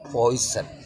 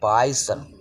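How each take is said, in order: First: The first vowel sounds like 'oy'. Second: The first vowel sounds like 'eye'. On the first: The speaker calls it right. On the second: The speaker calls it wrong.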